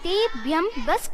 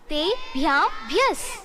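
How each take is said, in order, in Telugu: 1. చివరి పదం సాధారణ 'bas' లాగా పలకబడింది. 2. చివరి పదం 'bhyas' లాగా పలకబడింది.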